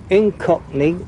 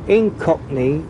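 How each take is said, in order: Both takes have the same delivery.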